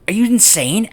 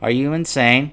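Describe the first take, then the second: First: It is said with upset, emotional feeling. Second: It is said flatly, like reading aloud. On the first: The speaker truly feels hurt by the disbelief. The speaker calls it right. "she legitimately sounded upset about the whole thing" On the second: The line is merely read without real feeling. The speaker calls it wrong. "as if they're reading it off a piece of paper"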